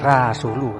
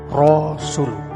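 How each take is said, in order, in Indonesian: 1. Bunyi R diucapkan tipis dan ringan. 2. Bunyi R diucapkan tebal dan berat. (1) "jadi tidak dibaca Rasulu" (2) "tapi Rasulu. Ro tebal ya"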